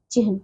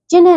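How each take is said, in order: First: Said in the usual way. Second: चिन्ह with n before h, "chinh"; mispronounced चिन्ह. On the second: Shown as a demonstration. Teacher shows pupils the error, n before h in चिन्ह. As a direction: swap the cluster in चिन्ह to "n-h". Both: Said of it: "नहीं".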